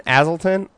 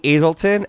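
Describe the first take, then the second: First: Azelton said as AZ-el-ton, short A; second try at the name. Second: Azelton said as AY-zel-ton, long A; first try at the name. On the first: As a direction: Azelton with the first vowel as in cat. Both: Shown as a demonstration. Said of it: "I don't know how you say her name".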